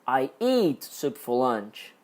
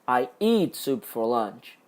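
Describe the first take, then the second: First: The word "eat" carries the main stress. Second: The same.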